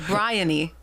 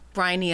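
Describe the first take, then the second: First: The first syllable does not sound like brine. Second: The first syllable sounds like the word brine. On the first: The speaker calls it right. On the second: The speaker calls it wrong.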